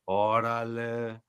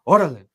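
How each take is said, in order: First: It sounds dismissive and disbelieving. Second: It sounds urgent and pushing.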